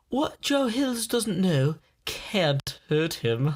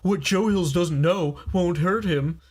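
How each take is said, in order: First: It is said in a put-on British accent. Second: It is said in the speaker's normal accent.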